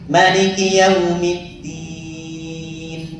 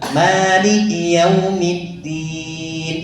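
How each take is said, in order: First: The first vowel of Maliki is kept short. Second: The first vowel of Maliki is drawn out long. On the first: This is another imam's reading. "Yang lain justru malah namanya pendek" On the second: This is one imam's reading. "Imam Hafiz yang panjang"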